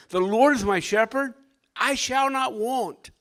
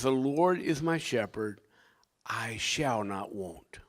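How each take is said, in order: First: Raised, ringing scripture quote; emphatic recitation. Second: Soft, low scripture quote, ending in a slow near-whisper; quietly recite, dropping to a slow whisper; hushed recitation. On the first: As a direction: declare the verse high and firm. Scripture quoted emphatically as key verse. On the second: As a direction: let the verse sink to a reverent hush. Same verse recited again, hushed. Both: Acted.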